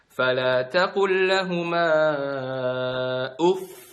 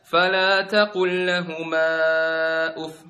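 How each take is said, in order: First: The voice is raised on the final doubled sound. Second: The final doubled sound gets no extra emphasis. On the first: The speaker calls it right. "Untuk memperjelas kalau itu ada tasdid, angkat suaranya" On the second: The speaker calls it wrong. "Jadi salah kalau misalnya kalian baca"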